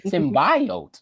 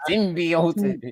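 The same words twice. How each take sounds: First: SYMBIOTE said "sim-BYE-oat", drawn out and falling; "symbiote" as sim-BYE-oat, pitch dropping. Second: SYMBIOTE said "sim-bee-oat", drawn out with a rise; "symbiote" as sim-BEE-oat, pitch lifting. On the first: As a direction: say "symbiote" with a long eye in the middle. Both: Shown as a demonstration. Trying out two pronunciations.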